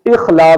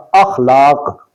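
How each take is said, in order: First: اخلاق with short i on the alif; غلط تلفظ. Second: اخلاق with short a on the alif; درست تلفظ. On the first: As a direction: say اخلاق as "ikhlaaq". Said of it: "الف کے نیچے زیر کے". (اخلاق، الف کے نیچے زیر کے ساتھ) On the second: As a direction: say اخلاق as "akhlaaq". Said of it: "الف پر زبر کے ساتھ". (اخلاق، الف پر زبر کے ساتھ) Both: Shown as a demonstration.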